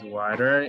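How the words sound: It is said in an American English accent. "decimos water en inglés americano"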